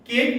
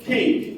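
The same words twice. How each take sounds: First: It is said in a Bengali-style way. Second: It is said in an English-style way. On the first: The speaker calls it wrong. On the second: The speaker calls it right.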